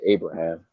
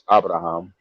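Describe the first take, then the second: First: It has an American English pronunciation. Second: It has a non-American pronunciation. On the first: "in regular American English, you say Abraham" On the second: "but it's Abraham"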